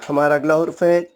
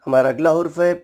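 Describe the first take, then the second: No difference in how they are said.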